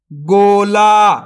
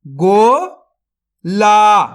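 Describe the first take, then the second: First: Said in the usual way. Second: गोला drawn out very slowly, syllable by syllable; sounded out slowly. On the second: Shown as a demonstration. Teacher sounds out a word for young readers, very slowly. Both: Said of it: "तो मिलके बन जाएगा".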